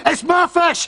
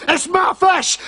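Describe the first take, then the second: First: It's MY fish, my pitched high and stressed; high insistent claim on my. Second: It's my FISH, shouted high on fish; high indignant shout on fish; shouted claim. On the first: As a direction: lean on the word my, high and indignant. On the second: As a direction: shout it, landing hard on fish. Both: Acted.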